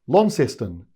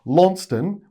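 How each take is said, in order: First: It is pronounced the Tasmanian way. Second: It is pronounced the British way. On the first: "if you're in Tasmania, you call it" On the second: "which is how you would say it if you were British"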